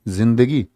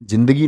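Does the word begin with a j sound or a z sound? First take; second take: z sound; j sound. First: The word begins with a z sound. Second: The word begins with a j sound. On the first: The speaker calls it right. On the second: The speaker calls it wrong.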